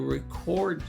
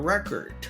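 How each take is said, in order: First: The stress is on the second syllable. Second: The stress is on the first syllable. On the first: It names an action. "two syllables in a verb or adverb, we emphasize the second syllable" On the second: It names a thing. "two syllables in a noun or an adjective, we typically emphasize the first syllable"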